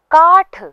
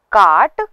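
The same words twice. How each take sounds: First: काठ high and loud, breath on ठ; aspirated retroflex th. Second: काट louder, ending in plain hard ट; unaspirated retroflex t. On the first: Teacher contrasts ट and ठ, काठ with final aspiration. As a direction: end काठ with a puff. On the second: Teacher contrasts ट and ठ, काट without final aspiration. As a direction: end काट with no puff. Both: Shown as a demonstration. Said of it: "ये दोनों ही अलग-अलग वर्ण हैं".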